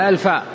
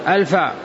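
The two takes are said the same way.

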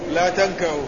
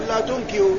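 First: The verb's first syllable has an 'a' vowel. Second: The verb's first syllable has a different vowel. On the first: The speaker calls it right. "بفتح حرف المضارعة" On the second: The speaker calls it wrong. "حتى لا يقرأ إنسان"

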